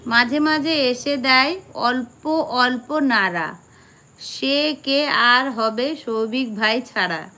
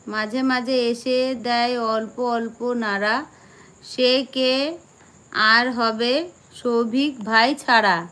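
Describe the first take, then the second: The two takes are said the same way.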